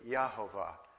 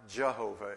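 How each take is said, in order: First: The name begins with a Y sound. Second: The name begins with a J sound. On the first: The speaker calls it right. "it's really Yahovah. There is no J in Hebrew" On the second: The speaker calls it wrong. "pronounced not Jehovah"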